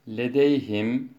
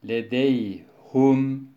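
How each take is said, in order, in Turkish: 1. h'den sonraki ünlü i'dir. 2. h'den sonraki ünlü u'dur.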